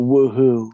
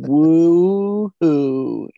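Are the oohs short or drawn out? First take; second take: short; drawn out. First: The oohs are short and clipped. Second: The oohs are long and drawn out.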